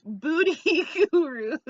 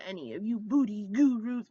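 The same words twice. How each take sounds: First: High laughing booty gurus, much louder. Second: Said in the usual way. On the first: Shown as a demonstration. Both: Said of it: "Beauty gurus who might".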